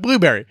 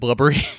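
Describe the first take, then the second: First: The name sounds like blueberry, with a long first vowel. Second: The name sounds like blubbery, with a short first vowel. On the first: The speaker calls it right. "But Blueberry" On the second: The speaker calls it wrong. "I always pronounce it Blubbery"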